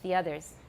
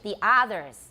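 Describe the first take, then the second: First: The vowel in 'others' is short and central. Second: The vowel in 'others' is drawn out long. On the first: The speaker calls it right. "American English" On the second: The speaker calls it wrong. "here's Taiwan English"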